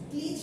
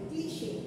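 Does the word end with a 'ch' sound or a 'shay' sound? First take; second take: ch; shay. First: The word ends in a short 'ch' sound. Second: The word ends in a 'shay' sound. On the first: The speaker calls it wrong. "ওয়ার্ডটা দেখে মনে হচ্ছে ক্লিচ" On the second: The speaker calls it right. "এটার প্রনাউন্সিয়েশনটা হবে ক্লিশে"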